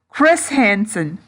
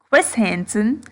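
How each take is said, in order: First: The R sound is clearly pronounced. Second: The R sound is weak or dropped. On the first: "I tried to pronounce my R in the last one" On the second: "it sounds like I'm saying"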